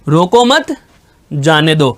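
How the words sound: The pause falls right after the second word. Do not stop it; let it go. "रोको मत को एक साथ बोला, फिर जाने दो को एक साथ बोला, बीच में मैंने आराम लिया"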